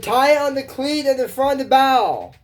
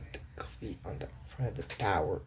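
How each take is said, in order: First: High, louder bossy order about the cleat; bossy girl voice. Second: "The cleat on the front of the bow" said lower and very soft; quiet low repeat. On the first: Acted. Miranda giving the pirate instructions, high and bossy. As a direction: bark the boat instructions. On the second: Shown as a demonstration. Puzzled viewer repeating the line softly to herself. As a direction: mutter it back to yourself.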